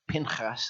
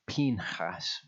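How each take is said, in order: First: The first vowel is short, like 'pin'. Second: The first vowel is long, like 'peen'. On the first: The speaker calls it wrong. "I've been saying Pinchas" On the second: The speaker calls it right. "it actually turns out to be Pinchas"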